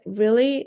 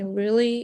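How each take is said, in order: First: It sounds angry. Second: It sounds sad.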